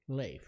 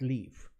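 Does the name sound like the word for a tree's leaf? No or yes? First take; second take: no; yes. First: It does not sound like the word leaf. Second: It sounds like the word leaf. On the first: The speaker calls it right. "my name is Leif" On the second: The speaker calls it wrong. "not leaf"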